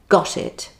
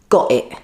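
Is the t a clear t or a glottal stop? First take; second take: clear t; glottal stop. First: The t is pronounced as a clear t. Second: The t is replaced by a glottal stop. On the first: "instead of saying" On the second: "the T would be a glottal stop"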